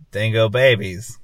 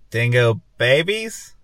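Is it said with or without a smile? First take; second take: without smile; with smile. First: It is said without smiling. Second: It is said while smiling.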